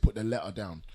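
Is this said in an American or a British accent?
British. It is said in a British accent. "or we'd say put the letter down"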